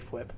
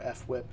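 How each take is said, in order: First: The f glides straight into the w sound. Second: An f sound comes apart before whip. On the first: This is the speaker's own preferred way. "but I like to say Fwip" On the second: This is another way the owner of the name says it. "or F Whip"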